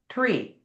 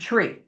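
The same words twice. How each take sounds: First: It begins with a clear t sound. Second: It begins with a ch-like sound. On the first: "technically you're supposed to say" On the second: "How do we say it? ... We say it with a C H"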